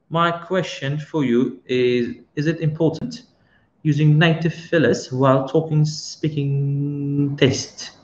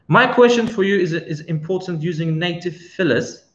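First: Slow, deliberate rereading of the question; unhurried repeat for clarity; slow careful reread. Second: Said in the usual way. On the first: Shown as a demonstration. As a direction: spell the question out slowly so it lands. Question read again slowly.

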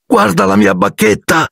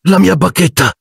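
First: High, stressing "mia", dismayed; rising upset over "mia"; distraught cry. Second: High shaken voice; stunned, a touch of tremble; dismayed high "mia"; trembling voice. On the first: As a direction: show him the broken wand in despair. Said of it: "con voce tremante". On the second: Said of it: "disse Ron con voce tremante". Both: A narrator's reading.

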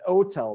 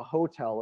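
First: "hotel" said with no H, as "oh-tel"; dropped H. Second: Said in the usual way. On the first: Shown as a demonstration. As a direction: drop the first sound of "hotel". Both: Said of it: "because the H was burnt out".

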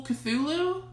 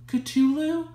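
First: Cthulhu said "kuh-THOO-loo"; th pronunciation. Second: Cthulhu said "kuh-TOO-loo", higher; alternative pronunciation. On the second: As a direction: say Cthulhu with a hard t, questioning. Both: Shown as a demonstration. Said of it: "heard this said a lot of different ways".

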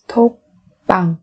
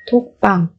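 First: Slow, separated syllables for learners; careful teacher's slow model. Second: Said in the usual way. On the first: Shown as a demonstration. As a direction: spell it out slowly, beat by beat.

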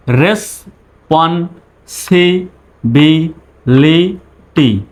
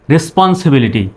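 First: responsibility very slowly, a pause after each syllable; broken into syllables. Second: Said in the usual way. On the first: Shown as a demonstration. Teacher speaking for learners to repeat, responsibility in slow syllables. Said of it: "আমি বলবো, আমার পরে আপনি বলবেন". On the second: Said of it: "তারপরে একসঙ্গে বলবেন".

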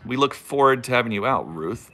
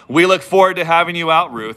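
First: Said in the usual way. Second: Louder, hammed-up presenter tone; mock YouTuber voice. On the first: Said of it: "That sounds so stupid and formal". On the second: Shown as a demonstration. Vlogger mocking his own YouTube talk, hammed-up louder. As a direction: parody the stiff YouTube host. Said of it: "That's how people talk when they do live videos on YouTube".

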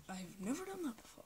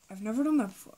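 First: Very soft replay of the line; quiet. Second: Said in the usual way. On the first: Shown as a demonstration. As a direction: say it barely audible. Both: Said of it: "If you could not hear me".

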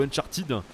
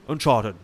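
First: "Uncharted" misread with a French "-tid" ending; wrong pronunciation. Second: "Uncharted" English-style, with a swallowed last syllable; English pronunciation. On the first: Player showing how not to say "Uncharted", ending in "-tid". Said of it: "c'est pas Uncharted ou Uncharted". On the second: Player showing the normal way, "Uncharted" in attempted English. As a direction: say "Uncharted" as English "un-CHAR-tid", ending reduced. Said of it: "Normalement, c'est Uncharted". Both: Shown as a demonstration.

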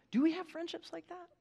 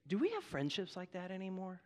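First: Higher, softer pleading repeat; pressing the congregation a second time; lifted repeat. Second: Softer, low searching question; soft reflective ask to the congregation. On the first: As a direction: raise the pitch to press the question home. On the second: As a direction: ask it quietly, letting it sink in. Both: Real, not acted.

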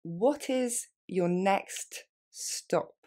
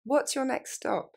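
First: What is your next stop, every word spelled out slowly; slow and careful for the learner. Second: Quick, natural what's your next stop; faster, more natural. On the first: Teacher modelling for students, very slow. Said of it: "Plus lentement". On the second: Teacher modelling for students, quick natural. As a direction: run it together like a native. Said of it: "Plus rapidement, plus naturellement". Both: Shown as a demonstration.

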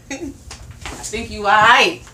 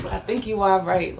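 First: Slow drawn out. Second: Said in the usual way. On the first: Real, not acted. Teasing reassurance, drawn out.

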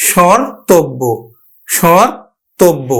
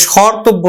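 First: স্বরতব্য as shõr-tobbo, nasal first vowel; nasalised vowel. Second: স্বরতব্য with a plain oral vowel, no nasal sound; without nasalisation. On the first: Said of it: "চন্দ্রবিন্দুটার একটু উচ্চারণ নিয়ে আসতে হবে". (স্বরতব্য চন্দ্রবিন্দু দিয়ে নাকি উচ্চারণ) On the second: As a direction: say স্বরতব্য quickly as shor-tobbo, unnasalised. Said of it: "স্বরতব্য না বলে". (স্বরতব্য চন্দ্রবিন্দু ছাড়া উচ্চারণ) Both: Shown as a demonstration.

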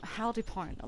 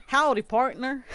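First: Said in the usual way. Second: Put-on higher, louder cowboy southern accent. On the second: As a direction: give your best playful Southern howdy. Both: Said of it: "like, a southern accent?".

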